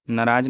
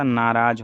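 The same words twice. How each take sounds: First: नाराज as "naraaj"; short first vowel. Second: Said in the usual way. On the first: Shown as a demonstration. Teacher showing the mistake, नाराज with short first vowel. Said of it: "नहीं होता". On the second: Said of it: "नाराज होता है".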